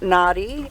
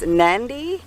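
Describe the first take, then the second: First: The d is plain, with no n before it. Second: An n sound comes before the d. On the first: The speaker calls it wrong. "it's not nadi" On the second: The speaker calls it right. "it's nandi"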